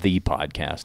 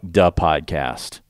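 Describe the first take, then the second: First: 'The' is said with a 'th' sound. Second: 'The' is said with a 'd' sound. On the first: "It's not the podcast" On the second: "they just go with duh. You know, like duh podcast"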